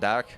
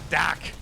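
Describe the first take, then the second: First: The name is said with an Irish accent. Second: The name is said with a Boston accent. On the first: "I don't know if that's the Irish pronunciation, you call it Dak" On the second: "there's the Boston pronunciation"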